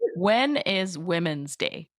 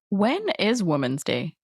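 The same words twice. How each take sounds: First: 'Women' has a short first vowel like 'wit'. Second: 'Women' sounds almost the same as 'woman'. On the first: The speaker calls it right. "I'm going to say that again" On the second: The speaker calls it wrong. "how I pronounce woman and women is very"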